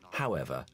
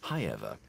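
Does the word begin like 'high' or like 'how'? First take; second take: how; high. First: The first syllable sounds like 'how'. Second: The first syllable sounds like 'high'. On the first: The speech style is modern. "in the modern way that we would understand" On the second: The speech style belongs to an earlier decade. "the sort of Brief Encounter received pronunciation that we remember from the 40s"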